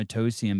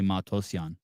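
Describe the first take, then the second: First: The name is said with an anglicized pronunciation. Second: The name is said with its native pronunciation. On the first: This is how outsiders say the name. The speaker calls it wrong. "Whitey say my name Matosian" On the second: This is the name's real pronunciation. The speaker calls it right. "but it's really Matosian"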